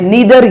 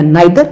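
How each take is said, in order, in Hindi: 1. पहला स्वर 'ee' जैसा बोला जाता है। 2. पहला स्वर 'eye' जैसा बोला जाता है। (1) "वैसे आजकल सब नीदर बोलते हैं" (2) "जो बोलना चाहते हो"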